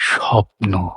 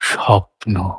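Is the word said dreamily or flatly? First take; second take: dreamily; dreamily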